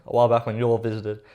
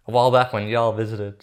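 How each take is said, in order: First: Put-on cowboy accent. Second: Said in the usual way. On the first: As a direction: read it with a hint of cowboy accent. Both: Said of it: "bring out the cowboy accent again".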